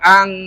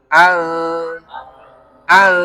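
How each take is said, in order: First: The n sound is pronounced fully and clearly. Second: The n sound is held and blurred nasally. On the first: The speaker calls it wrong. "bukan ang" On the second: The speaker calls it right. "ditahan dengan disamarkan"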